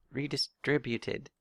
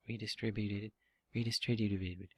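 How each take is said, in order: First: "Redistributed" said slowly, syllable by syllable; careful pronunciation. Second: Garbling the syllables of "redistributed"; tongue-tied stumbling. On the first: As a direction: get through "Redistributed" slowly and cleanly. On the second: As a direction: trip over the middle of "redistributed", letting it collapse. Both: Real, not acted. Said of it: "I can't even say it".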